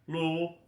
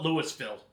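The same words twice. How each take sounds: First: The syllables are slurred together, as if mouth full. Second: Every syllable is pronounced fully and distinctly. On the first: The speaker calls it right. "just try saying it with a mouthful of mashed potatoes" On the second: The speaker calls it wrong. "don't ever call it Louisville"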